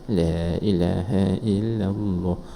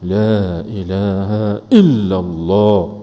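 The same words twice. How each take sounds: First: It is said softly and drowsily, trailing off. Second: It is said loudly and forcefully. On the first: It is too weak to clean the heart. The speaker calls it wrong. "lena lagu tu. Tak boleh" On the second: It is strong enough to clean the heart. The speaker calls it right. "Dia kena kuat"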